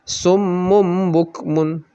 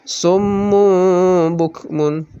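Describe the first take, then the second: First: The nasal sound is short and quick. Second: The nasal sound is held for two beats. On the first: The speaker calls it wrong. "salah kita baca misalnya dengan summum bukmun. Jadi cepat. Nah, itu salah" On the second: The speaker calls it right. "Yang benar ada dengungnya dua harakat"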